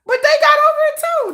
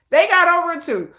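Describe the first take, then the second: First: Higher emphatic. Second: Said in the usual way. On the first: Real, not acted. Repeats line, first high.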